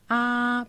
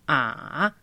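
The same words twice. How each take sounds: First: The pitch stays high and level. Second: The pitch dips low and then rises. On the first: "primero tono" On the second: "Tercero tono"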